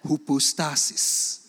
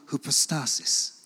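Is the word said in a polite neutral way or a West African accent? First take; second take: West African; polite neutral. First: It is said with a West African accent. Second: It is said carefully in a polite, neutral accent. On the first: "Now I'll say it the West African way" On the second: "I've said it very politely"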